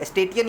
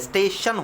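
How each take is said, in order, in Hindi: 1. बीच का व्यंजन 't' जैसा सुनाई देता है। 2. बीच का व्यंजन 'sh' जैसा सुनाई देता है। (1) "स्टेटियन ये नहीं होता है" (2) "स्टेशन होता है"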